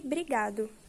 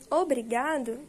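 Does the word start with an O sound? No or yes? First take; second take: no; yes. First: The word starts directly with a B. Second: The word starts with an O vowel. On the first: "fica somente brigado" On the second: "como em obrigado"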